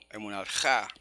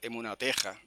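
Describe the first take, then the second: First: The stress falls on the final syllable. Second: The stress falls before the final syllable. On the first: The speaker calls it right. "eso quiere decir que la palabra es aguda" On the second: The speaker calls it wrong. "no se puede decir"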